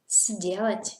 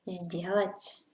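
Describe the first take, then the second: First: The first consonant is a voiceless S sound. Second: The first consonant is a voiced Z sound. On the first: The speaker calls it wrong. "you do not say сделать" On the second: The speaker calls it right. "you say сделать"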